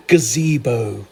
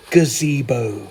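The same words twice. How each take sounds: The two takes are said the same way.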